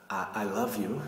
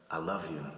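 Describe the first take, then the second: First: Hesitant, stammered love confession, rising on love; less confident. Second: Low, soft, settled love confession; more confident. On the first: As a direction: say it unsure, with a halting start. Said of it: "less confidence if I'm talking like this". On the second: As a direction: say it sure, falling, no hesitation. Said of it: "this has a little bit more of confidence". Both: Shown as a demonstration.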